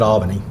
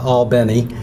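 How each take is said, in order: First: It is pronounced like the New York city. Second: It is pronounced the local Georgia way. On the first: "I pronounce it Albany, like the city in New York" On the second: "the way a lot of locals do ... it always comes off as sounding fake"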